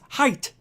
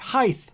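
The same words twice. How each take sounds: First: The word ends with a 't' sound. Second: The word ends with a 'th' sound. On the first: The speaker calls it right. "It is pronounced height" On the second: The speaker calls it wrong. "Height is not pronounced height"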